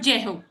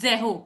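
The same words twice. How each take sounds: First: The word begins with a j sound. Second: The word begins with a z sound. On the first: The speaker calls it wrong. "Not जेहो" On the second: The speaker calls it right. "ज के नीचे डॉट आती है तो this is ज"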